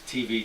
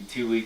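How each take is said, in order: First: The middle consonant is a v sound. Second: The middle consonant is a w sound. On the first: "One pronunciation of the Indian, it's Sanskrit, is" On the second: "The other pronunciation would be; that same letter can be pronounced B or W"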